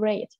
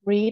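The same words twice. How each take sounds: First: The vowel is short, as in 'bed'. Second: The vowel is long, as in 'seed'. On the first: The speaker calls it right. "ครูอ่านว่า" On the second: The speaker calls it wrong. "คุณครูไม่ได้อ่านบอกว่าread"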